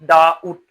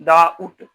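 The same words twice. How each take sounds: The two takes are said the same way.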